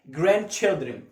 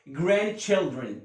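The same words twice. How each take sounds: The two takes are said the same way.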